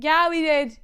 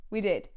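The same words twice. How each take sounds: First: Loud, high insistence; overeager cover-up. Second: Said in the usual way. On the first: Retold or imitated. Kid covering up to family, loud forced assurance. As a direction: blurt it far too emphatically.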